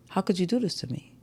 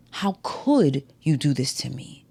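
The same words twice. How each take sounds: First: "do" gets the peak, rest fast and soft; quick, hushed, punch "do"; weight on "do" in a rushed line; stress on DO. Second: "could" leaned on, whole line slow and soft; slow it down and press "could"; drawn-out question stressing "could". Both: Shown as a demonstration. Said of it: "when altering the emphasis on a word".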